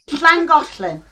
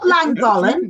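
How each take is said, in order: First: The name is said with local Welsh sounds. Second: The name is said with plain English sounds. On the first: The speaker calls it right. "I'm going to say it right" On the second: The speaker calls it wrong. "Not Llangollen"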